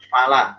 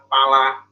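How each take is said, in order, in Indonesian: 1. Kata ini diawali bunyi f. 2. Kata ini diawali bunyi p. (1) "ada kata fala" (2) "Jangan ngomongnya pala"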